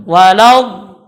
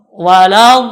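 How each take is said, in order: The two takes are said the same way.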